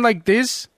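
It is spoken in a foreign accent. "a foreign accent"

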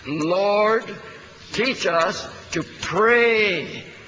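The word "pray" is stressed. The point is learning to really pray. "emphasizing the word "pray.""

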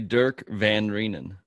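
The name is said the American way.

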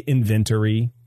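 The word is said in a British accent. "they say inventory"

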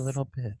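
It is said in a soft ASMR tone.

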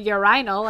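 It is pronounced the English way.

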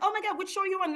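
It sounds eager and excited.

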